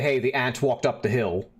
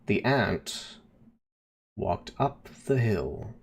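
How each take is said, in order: First: It is said at a normal pace. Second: It is said slowly and drawn out.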